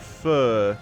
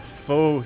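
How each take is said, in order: First: It is said like the soup's name. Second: It is not said like the soup's name.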